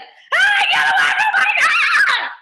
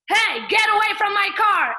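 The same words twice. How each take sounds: First: It sounds overly angry and uncontrolled. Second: It sounds angry but controlled and balanced.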